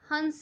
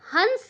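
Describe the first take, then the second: First: The vowel itself is nasalized, softly. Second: The nasal is said as a full consonant. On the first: The speaker calls it right. "हंस होता है। बिल्कुल आराम से... बिल्कुल politely" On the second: The speaker calls it wrong. "हंस नहीं होता है"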